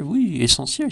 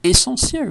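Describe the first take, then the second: First: Said in the usual way. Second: High, emphatic "Essentielle" with a long stress on the middle syllable; mock emphatic. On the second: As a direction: fling "Essentielle" up high like big news.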